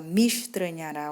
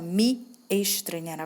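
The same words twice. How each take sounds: First: The two words run together into one. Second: The two words are said separately. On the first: The speaker calls it right. "você fala me estranhará, ó, mish" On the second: The speaker calls it wrong. "você não fala me estranhará"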